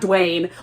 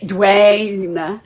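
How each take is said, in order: First: The vowel in the name is short. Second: The vowel in the name is drawn out. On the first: The speaker calls it wrong. "not Dwayne" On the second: The speaker calls it right. "he draws the A"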